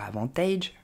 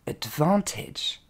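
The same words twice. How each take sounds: First: AVANTAGE said low, ending in a long "aydge"; over-pronounce the end of AVANTAGE as "taydge"; low, softer AVANTAGE with the learners' "aydge" ending; wrong pronunciation. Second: ADVANTAGE slowly as "ud-VAN-tedge"; slow teaching model of ADVANTAGE; correct English pronunciation. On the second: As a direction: stretch VAN in ADVANTAGE, short "edge" ending. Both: Shown as a demonstration. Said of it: "Il ne faudra pas dire".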